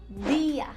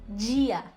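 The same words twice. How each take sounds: First: The d is a clean, crisp plain d sound. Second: The d is softened into a hissy 'dj' sound. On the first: This is how it is said in Spanish. The speaker calls it right. "eu sempre vou dizer o D bem limpinho" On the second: This is how some Brazilian Portuguese speakers say it. The speaker calls it wrong. "o som di, assim meio chiado"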